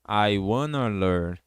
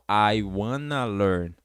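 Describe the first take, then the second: First: Want and to merge into one word, wanna. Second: Want and to merge into one word, wanna.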